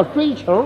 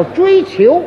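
First: 追求 echoed with an r-coloured ending; mispronounced 追求. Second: Said in the usual way. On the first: Shown as a demonstration. Correcting his partner's word, 追求 echoed as zhuī qiúr. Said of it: "不叫追求". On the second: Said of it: "那叫追求啊".

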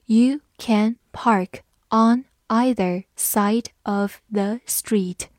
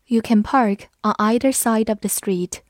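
First: Slow, careful reading of "You can park on either side of the street". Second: Said in the usual way. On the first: Shown as a demonstration. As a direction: read it slowly so learners can follow. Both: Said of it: "我们慢读一遍".

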